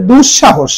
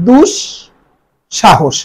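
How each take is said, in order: First: Said in the usual way. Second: দুঃসাহস split as "dush", long pause, "sha-hosh"; careful syllabled pronunciation. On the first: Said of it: "দুঃসাহস শব্দটি উচ্চারণ হবে". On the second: Shown as a demonstration. Teacher models দুঃসাহস for students, slowly, in two separated parts. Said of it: "শব্দটি উচ্চারণ হবে".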